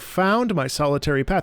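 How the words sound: The stress falls on the word found. The act of finding is what matters. "Usually we would go, ... Emphasis on found"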